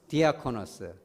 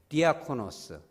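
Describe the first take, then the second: The two takes are said the same way.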